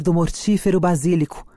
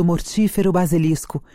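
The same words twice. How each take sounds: First: "basílico" misread, stressed on -sí- with no s before the c; "basílico" said wrongly as ba-SÍ-li-co; misread word. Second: "basilisco" corrected, said ba-si-LIS-co with the s; "basilisco" with the full -lis- syllable; corrected word. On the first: Reader misreads basilisco in Juliet's speech, saying "basílico". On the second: Reader rereads Juliet's line, now saying "basilisco". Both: Real, not acted. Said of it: "Basilisco aqui, tá".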